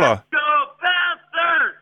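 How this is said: It is said in a hoarse voice.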